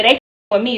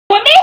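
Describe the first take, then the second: First: Said in the usual way. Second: Laughing. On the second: Shown as a demonstration.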